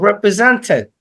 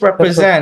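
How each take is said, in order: First: The t sound after n is pronounced. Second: The t sound after n is dropped. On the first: The speaker calls it wrong. "it isn't represented" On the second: The speaker calls it right. "but it is represent. ... T is silent"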